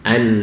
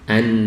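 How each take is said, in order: Both takes have the same delivery.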